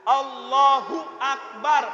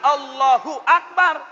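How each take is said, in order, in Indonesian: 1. Bunyi 'hu' itu kuat dan penuh. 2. Bunyi 'hu' itu lemah dan kecil. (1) "hu-nya besar Pak" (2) "bukan hak kecil"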